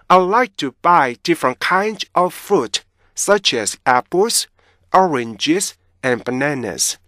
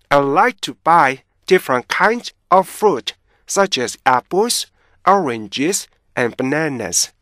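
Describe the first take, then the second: The two takes are said the same way.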